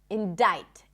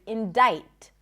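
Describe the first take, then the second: Both takes have the same delivery.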